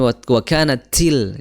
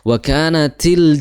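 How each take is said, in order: First: The t is hissy, with rubbing friction. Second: The t is crisp, without rubbing friction. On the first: The speaker calls it wrong. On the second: The speaker calls it right.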